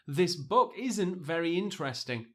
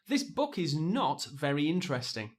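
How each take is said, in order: First: "Is not" is contracted into one word. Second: "Is not" is said as two full words. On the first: It sounds natural and relaxed. The speaker calls it right. "Much easier to say and also quicker" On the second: It sounds formal and forced. The speaker calls it wrong. "It almost sounds too formal, too forced"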